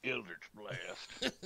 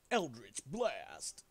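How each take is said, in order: First: Slow, lightly imitated spell name; mock spell call. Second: Slow, drawn-out spell name; meme spell call. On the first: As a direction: echo the meme call, drawn out. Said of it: "that's a meme in a D and D community". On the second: Acted.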